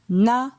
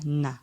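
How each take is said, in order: First: The syllable is said on a mid tone. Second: The syllable is said on a low tone. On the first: "pour un ton moyen" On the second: "la première syllabe avec le ton bas"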